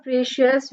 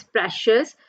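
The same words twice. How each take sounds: First: "precious" with a long EE, PREE-shus; wrong pronunciation. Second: "precious" with a short E, PRESH-us; correct pronunciation. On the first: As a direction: say the first vowel of "precious" as in "free". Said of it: "So it's not precious". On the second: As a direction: say the first vowel of "precious" as in "press". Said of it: "the right pronunciation is precious". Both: Shown as a demonstration.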